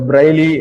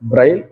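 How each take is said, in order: First: The word ends with an extra vowel sound. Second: The word ends on a consonant sound. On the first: The speaker calls it wrong. "இத பிரைலி அப்படின்னு நிறைய பேர் சொல்லுவாங்க" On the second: The speaker calls it right. "கடைசியா வர்ற ஈக்கு உச்சரிப்பு கிடையாது"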